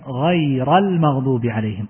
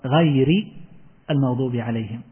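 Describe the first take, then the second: First: The first word ends with an a vowel. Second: The first word ends with an i vowel. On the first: The word states the condition of those favored. "والقراءة الثانية بالنصب" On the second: The word describes those who were favored. "القراءة الأولى بالجر"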